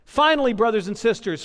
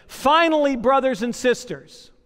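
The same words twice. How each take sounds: First: Said in the usual way. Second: Scripture reading. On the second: Acted.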